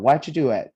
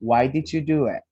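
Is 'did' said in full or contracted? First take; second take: contracted; full. First: Did is contracted onto why. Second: Did is said in full. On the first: "Not everybody does that contraction" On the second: "you could also say"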